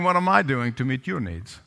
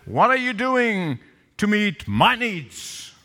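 First: Much lower, even-toned question; selfless question. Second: Slow, drawn-out demand with big pitch swings; mock a self-centred spouse, stretching the words. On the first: Retold or imitated. Spouse asking what the other needs, low and unassuming. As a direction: ask it low, without the demand. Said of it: "Can you see the difference?". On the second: Spouse confronting the other about unmet needs, demanding. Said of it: "They look at each other and said".

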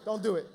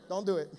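No difference in how they are said.

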